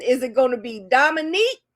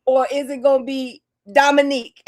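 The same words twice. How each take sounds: First: "Dominique" said with a questioning rise; rising "Dominique". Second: "Dominique" said with a firm fall. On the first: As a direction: lift the end of "Dominique" upward. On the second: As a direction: drop "Dominique" down to a finish. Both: Shown as a demonstration.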